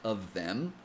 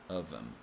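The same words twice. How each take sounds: First: The th sound in them is fully pronounced. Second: The th sound in them is dropped. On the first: "you can pronounce it like this" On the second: "eliminate the T H sound and pronounce it as of them"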